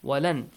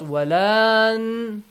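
First: The second vowel is clipped short and quick. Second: The second vowel is drawn out long. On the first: The speaker calls it right. "Fast and furious" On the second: The speaker calls it wrong. "Not walan"

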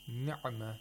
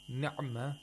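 First: The ayin sound is cut very short. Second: The same.

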